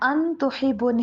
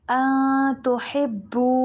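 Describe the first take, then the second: First: The n is pronounced fully and clearly. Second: The n is hidden in a nasal sound. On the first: The speaker calls it wrong. "अन तुहिब्बू नहीं" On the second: The speaker calls it right. "अन के ऊपर इख्फा करना है।"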